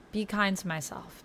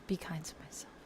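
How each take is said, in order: First: Said in the usual way. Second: Soft whispered repeat to herself; whispering. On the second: Shown as a demonstration. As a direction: whisper it gently, like a reminder.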